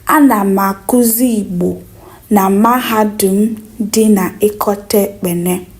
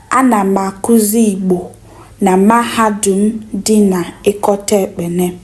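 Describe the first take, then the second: No difference in how they are said.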